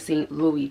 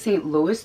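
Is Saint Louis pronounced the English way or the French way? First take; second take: French; English. First: Saint Louis is pronounced the French way. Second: Saint Louis is pronounced the English way. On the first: The speaker calls it right. "that would make sense because it's a French brand" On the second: The speaker calls it wrong. "I was calling it the Saint Louis tote"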